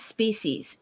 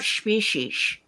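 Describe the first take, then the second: First: The word is said plainly, without extra sounds. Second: The word is said with extra ch sounds. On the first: The speaker calls it right. "Species is species" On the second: The speaker calls it wrong. "adds um, multiple P's and H's um, that should not be there and C H sounds"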